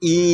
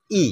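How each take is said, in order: First: ই held long; ই টেনে দীর্ঘ করে. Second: ই said short and brief; ই ছোট করে. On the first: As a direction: stretch ই into a long vowel. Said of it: "ইকারের উচ্চারণটা দীর্ঘ হবে". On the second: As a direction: clip ই as a short vowel. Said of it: "উচ্চারণটা হবে হর্ষ মানে অল্প". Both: Shown as a demonstration.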